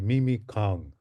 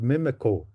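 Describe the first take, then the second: First: The name ends with a 'kong' sound. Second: The name ends with a short 'co' sound. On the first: This is the original version. The speaker calls it right. "So it's actually Mimi Kong" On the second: This is the version used now. The speaker calls it wrong. "Now we say co"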